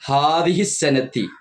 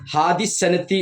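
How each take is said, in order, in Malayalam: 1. ആദ്യ വാക്കിന് മൂന്ന് അക്ഷരങ്ങളുണ്ട്. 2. ആദ്യ വാക്കിന് രണ്ട് അക്ഷരങ്ങൾ മാത്രമേയുള്ളൂ. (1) "എന്നാണ്" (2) "പറഞ്ഞു പോകരുത്"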